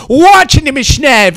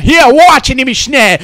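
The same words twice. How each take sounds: First: Slower, louder repeat of watch; yelled watch ihn nämlich schnell; shouted repeat. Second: Said in the usual way. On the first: Acted. Repeated line, escalating.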